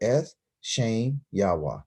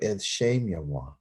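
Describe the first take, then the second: First: The words are separated by pauses. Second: The words are run together without pauses. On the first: The speaker calls it wrong. "I just can't go Eth, Shem, Yahweh. No, I can't say that" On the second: The speaker calls it right. "it's meant to say it all together"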